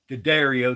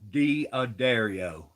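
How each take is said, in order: First: The word is said quickly and slurred together. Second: The word is said slowly with every syllable clear. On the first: The speaker calls it wrong. "it ain't called" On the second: The speaker calls it right. "it's called ... Slow down and pronounce it right"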